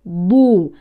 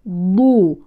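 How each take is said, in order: The two takes are said the same way.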